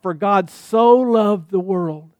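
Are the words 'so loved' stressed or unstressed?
stressed. 'So loved' is strongly stressed.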